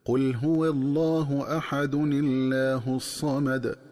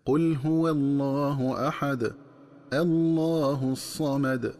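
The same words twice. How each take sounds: First: "أحد الله" joined as "ahadun-illah", nun with kasra, no hamza, thin lam; وصل الآيتين بكسر التنوين. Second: Slow recitation pausing after أحد; وقف ثم ابتداء بتفخيم. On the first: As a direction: read slowly, linking أحد الله with kasra on the tanwin. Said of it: "تكون القراءة هكذا". (وصل أحد الله بكسر نون التنوين وترقيق اللام) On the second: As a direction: stop at "أحد", then "الله" started with an open hamza and a full heavy lam. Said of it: "مع فتح همزة الوصل هكذا". (الوقف على أحد والابتداء بالله مفخمة) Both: Shown as a demonstration.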